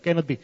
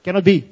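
First: Said in the usual way. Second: Loud, stunned denial; shocked outburst. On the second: Retold or imitated. Father reacting to son's accusation, loud shocked disbelief. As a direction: blurt it out in disbelief.

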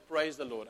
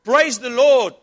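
First: Said in the usual way. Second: High, very loud shouted praise; triumphant shout. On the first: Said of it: "we will always say". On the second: Acted. Old lady shouting praise back at the atheist, very loud. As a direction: belt it out in victory. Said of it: "and she shouts".

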